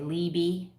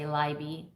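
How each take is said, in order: First: The name is said the American way. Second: The name is said the German way.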